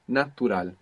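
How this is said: It has pure Spanish vowels and a clear T. The speaker calls it right. "So you pronounce a T. A is like A, U is like U"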